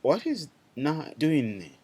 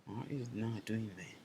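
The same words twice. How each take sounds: First: Loud, slow teacher question; louder slower first ask. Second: Softer, patient repeat of the question; softer repeated ask. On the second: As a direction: repeat it softly, inviting an answer. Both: Shown as a demonstration.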